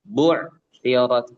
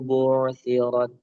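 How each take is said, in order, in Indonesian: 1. Bunyi Ain dihentikan secara tiba-tiba. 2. Bunyi Ain mengalir dengan halus tanpa putus.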